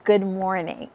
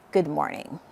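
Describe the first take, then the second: First: The tone is warm and welcoming. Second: The tone is cold and unwelcoming.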